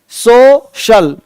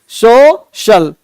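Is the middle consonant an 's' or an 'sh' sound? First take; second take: sh; sh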